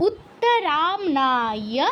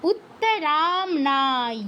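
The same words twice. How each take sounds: First: উত্তরামনায় drawn out slowly, starting from উ with a rising end; slow syllable demo. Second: উত্তরামনায় drawn out slowly, settling down with a falling end; slow syllable demo. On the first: Teacher demonstrating the second half to students, slowly. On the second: Teacher repeating the word slowly for students to copy. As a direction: spell out উত্তরামনায় slowly and let it fall. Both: Shown as a demonstration. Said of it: "পরের অংশটা কোত্থেকে শুরু হবে".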